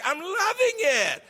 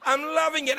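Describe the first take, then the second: First: High, slow, laughing with joy; laughing delight. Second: Eager repeat. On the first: Telling the audience about studying French, laughing with delight. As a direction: let the joy spill over into a laugh. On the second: Repeats with enthusiasm. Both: Real, not acted.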